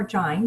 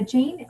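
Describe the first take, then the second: First: Jain with a long I, rhyming with "fine"; alternative pronunciation. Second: Jain with a long A, rhyming with "rain"; first pronunciation. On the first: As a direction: say Jain as "Jine". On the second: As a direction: say Jain like the name "Jane". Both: Shown as a demonstration. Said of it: "you could pronounce it either or".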